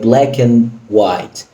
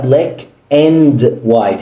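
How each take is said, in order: First: The d in 'and' is held without release. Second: The d in 'and' is fully released. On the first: The speaker calls it right. "هي" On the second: The speaker calls it wrong. "مفيش بقى"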